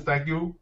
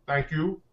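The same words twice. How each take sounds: First: Said in the usual way. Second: "Thank you" with a light East Asian accent; a hint of an East Asian accent on "Thank you"; slight East Asian accent. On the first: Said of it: "with a slight Asian accent". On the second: Real, not acted. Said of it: "Don't know why I said that with a slight Asian accent".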